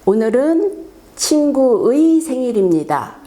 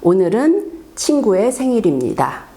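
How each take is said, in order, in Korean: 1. 조사 '의'는 완전히 또박또박 발음해요. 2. 조사 '의'는 편하게 발음해요. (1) "반드시 의, 의라고 발음을 어, 집중해서 하다 보면 좀 부자연스러워요" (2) "일반 회화에서 말할 때에는"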